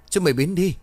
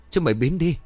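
First: Higher, louder panicked scream; terrified man screaming the repeat even louder. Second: High, loud terrified scream; frightened man screaming at ghosts. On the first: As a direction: scream it again even harder. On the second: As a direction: yell them away in terror. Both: A narrator's reading. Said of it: "Quý lại hét lớn".

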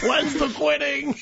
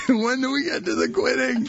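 First: High, slow impatient whine; eager client voice. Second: Said in the usual way. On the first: Pretend. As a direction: whine for the quitting. Mock impatient gym client.

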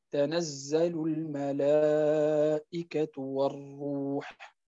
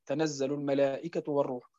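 First: الملائكة with its long vowel held a full four beats, slow; slow Quranic recitation with the long vowel in الملائكة lengthened; correct madd. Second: تنزل الملائكة said with the madd in الملائكة held short, not stretched; the incorrect short-madd reading of تنزل الملائكة; wrong short vowels. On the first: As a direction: stretch the madd in الملائكة, then a drawn-out والروح. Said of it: "وإنما نقول". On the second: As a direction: rush through الملائكة without lengthening its long vowel. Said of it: "عند القراءة لا نقول". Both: Shown as a demonstration.

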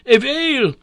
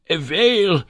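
First: Much higher, louder repeated "whale"; louder shout. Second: High, loud shout of whale. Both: A narrator's reading. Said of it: "shouted the professor".

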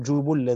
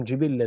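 First: جبلا with two "u" vowels and doubled l, jubullan; damma, doubled lam. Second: جبلا with two "i" vowels and doubled l, jibillan; kasra, doubled lam. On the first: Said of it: "بضم الجيم والباء وتشديد اللام". (جبلا بضم الجيم والباء وتشديد اللام) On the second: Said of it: "بكسر الجيم والباء وتشديد". (جبلا بكسر الجيم والباء وتشديد اللام) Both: Shown as a demonstration.

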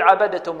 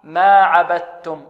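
First: عبدتم as "abade-tum"; wrong released dal. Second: Slow ما عبدتم with pure doubled t; correct assimilation. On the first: Teacher imitates common people's mistake, bouncing d. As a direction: release a voiced d inside عبدتم. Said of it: "وهذا خطأ". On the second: Teacher gives pupils the proper recitation, slow double t. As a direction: recite عبدتم as "abat-tum", no d. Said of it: "بل القراءة ما عبدتم". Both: Shown as a demonstration.

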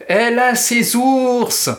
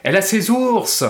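First: Slow, much higher and louder chant; sung, slow sing-song incantation of "Elle a ses ours"; sung, taunting incantation. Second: Chanted, higher, jeering schoolgirl taunt; chanted, sing-song taunt, "Elle a ses ours" said higher and jeering; mocking chant. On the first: Acted. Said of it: "Cela devenait une rengaine, une incantation". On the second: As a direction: chant it syllable by syllable to mock "ours". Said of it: "lança la formule en scandant les syllabes".

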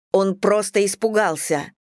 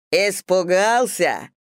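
First: Said in the usual way. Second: Slow scornful barked echo. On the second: A narrator's reading. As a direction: bark the word back in scorn. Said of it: "рявкнул мужчина". (рявкнул с издёвкой)

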